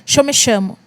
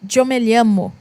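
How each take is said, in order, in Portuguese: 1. 'Llamo' começa com um som parecido com sh. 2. 'Llamo' começa com um som parecido com y. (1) "Lá eles falavam" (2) "no espanhol é"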